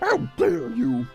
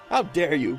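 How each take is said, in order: First: It is said in a put-on character voice. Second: It is said in the speaker's normal voice. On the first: "I kind of want to do a, a voice for this guy" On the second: "Okay, I'm done"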